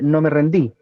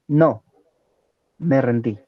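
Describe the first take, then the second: First: It is said without a pause after no. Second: It is said with a pause after no.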